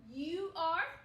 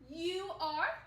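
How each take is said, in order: First: Two full words are said separately. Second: Two full words are said separately.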